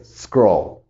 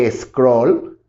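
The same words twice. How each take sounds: First: Scroll begun on a bare hissed S, no E; pure initial S. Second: Scroll mispronounced as "es-croll"; wrong added vowel. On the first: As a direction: correct it to scroll as one syllable, falling. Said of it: "La S impura". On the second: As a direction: put a clear E before scroll. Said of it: "La S impura no es scroll". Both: Shown as a demonstration.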